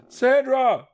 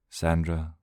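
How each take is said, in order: First: Very high, loud shriek of her name. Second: Said in the usual way. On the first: Acted. Johnny shrieking for his lost sister, very high and loud. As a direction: scream her name into the fog. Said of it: "he shrieked".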